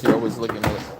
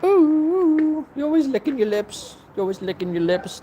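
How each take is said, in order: First: Said in the usual way. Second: Very high coo to a pet. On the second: Real, not acted. Owner cooing at lip-licking dog, high baby talk.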